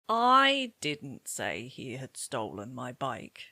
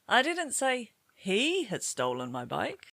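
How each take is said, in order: First: The word "I" carries the main stress. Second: The word "he" carries the main stress. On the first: It was not the speaker but somebody else who said it. "I can hear that you've stressed I" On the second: Somebody else had stolen it. "Perhaps somebody else had stolen it"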